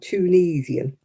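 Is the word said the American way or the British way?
American. It is said with an American pronunciation. The speaker calls it wrong.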